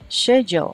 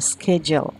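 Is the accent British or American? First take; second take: British; American. First: It is said in a British accent. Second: It is said in an American accent.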